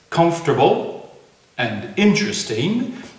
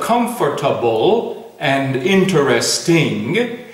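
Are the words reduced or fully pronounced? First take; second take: reduced; full. First: The words are reduced, with syllables dropped. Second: The words are said with every syllable pronounced. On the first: "when it's not possible" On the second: "instead of"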